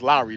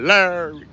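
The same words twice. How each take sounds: First: Said in the usual way. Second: "Larry" higher, held as one slurred syllable; drawn-out LARRY. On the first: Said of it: "That's Larry, though, I know". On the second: Shown as a demonstration. Streamer jokingly mispronouncing a viewer's name, drawn-out. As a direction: stretch "Larry" and swallow the ending. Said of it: "You gotta say it like that".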